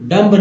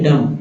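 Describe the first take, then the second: First: A b sound is heard at the end. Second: It ends on m with no b. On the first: The speaker calls it wrong. "डम्ब नहीं" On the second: The speaker calls it right. "तो क्या बोलते हैं डम"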